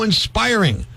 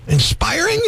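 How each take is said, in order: First: Drawn-out retold admiration; imitated gushing, falling at the end; raving fan. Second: INSPIRING as a high rising question; mock-baffled, pitched way up; incredulous echo. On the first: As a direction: say INSPIRING slowly, as sincere praise. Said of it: "She's raving about the show". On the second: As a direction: throw the word back in disbelief. Host echoes her word in disbelief.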